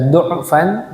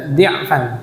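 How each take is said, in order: First: The first vowel is an u sound. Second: The first vowel is an i sound. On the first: "Boleh dibaca du'fan" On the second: "boleh dibaca dhi'fan"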